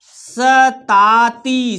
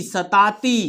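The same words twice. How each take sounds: First: सताती en trois syllabes longues et tenues; détache lentement chaque syllabe de सताती; lecture syllabée. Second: Said in the usual way. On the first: Shown as a demonstration. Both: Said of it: "हमारे साथ पढ़ना है आपको".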